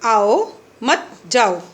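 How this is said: There is a pause right after 'aao'. Come, do not go. "आओ, यहाँ पर उन्होंने क्या दिया? अल्प विराम। मत जाओ यानी कि आइए, जाना नहीं है।"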